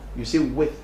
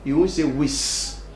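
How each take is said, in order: First: The word ends with a th sound. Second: The word ends with an s sound. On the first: The speaker calls it right. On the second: The speaker calls it wrong.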